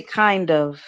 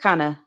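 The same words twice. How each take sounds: First: "kind of" with d and v sounded; two separate words. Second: "kinda" run together as kahna; blended words. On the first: Showing listeners the full form, "kind of" unblended. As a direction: pronounce "kind of" fully, unblended. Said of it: "I didn't say kind of". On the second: Showing listeners the blend, "kinda" run together. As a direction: blend "kinda" into one loose word, no v. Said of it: "I said kinda". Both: Shown as a demonstration.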